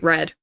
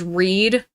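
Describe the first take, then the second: First: The vowel is short, like in 'red'. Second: The vowel is long, like in 'reed'. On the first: "it would be Red" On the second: "supposed to be pronounced as Reed"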